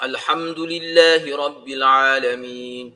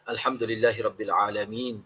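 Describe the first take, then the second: First: It has drawn-out vowels and a recitation rhythm. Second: It sounds like ordinary speech with plain rhythm. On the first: The recitation follows the proper recitation rules. The speaker calls it right. "itu kita tahu paling kurang gitulah" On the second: The recitation loses its Quranic character. The speaker calls it wrong.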